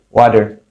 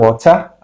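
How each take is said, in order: First: The t sounds like a soft d. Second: The t is pronounced as a clear t. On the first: "huruf T dibaca D" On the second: "Kalau British mungkin bilang water"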